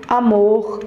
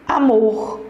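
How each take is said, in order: No difference in how they are said.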